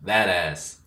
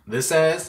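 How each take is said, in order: First: "That ass." low and falling, stress on That; "That ass." said flat and certain, pitch dropping; emphatic "That ass.". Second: "This ass?" asked with a rising tune, stress on ass; "This ass?" said as a puzzled question, lifting at the end. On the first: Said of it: "And she's like". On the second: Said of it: "And I was like". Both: Retold or imitated.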